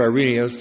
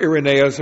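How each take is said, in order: First: Irenaeus said as eye-REE-nee-us; alternative pronunciation. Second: Irenaeus said as ir-uh-NAY-us; first pronunciation variant. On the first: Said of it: "depending how you pronounce it". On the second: Depending how you pronounce it. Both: Shown as a demonstration.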